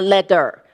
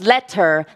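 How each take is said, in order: First: The middle consonant sounds like a D. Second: The middle consonant is a clear T. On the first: The speaker calls it wrong. "not letter" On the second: The speaker calls it right. "so that you can hear the T instead of a D. The word is letter"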